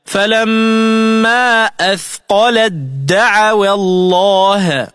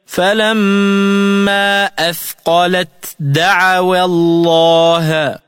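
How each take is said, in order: First: Slowly chanted "أثقلت دعوا" as athqalad-da'awa; ta into dal. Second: Slowly chanted "أثقلت دعوا" with T sounded before D; unassimilated ta. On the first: Tajweed teacher showing the merger, DD in "أثقلت دعوا". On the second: Tajweed teacher reciting the example, clear T ending "أثقلت". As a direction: recite with long vowels, separating T from D in "أثقلت دعوا". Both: Shown as a demonstration. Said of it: "فتلفظ هكذا".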